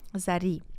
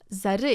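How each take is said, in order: First: The name ends in a front 'ee' vowel. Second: The name ends in a hard, back 'y' vowel. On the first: This is how it is said in the original. The speaker calls it right. "а там Зари, пардон" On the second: This is the Turkish way of saying it. The speaker calls it wrong. "я говорю по-турецки как Зары"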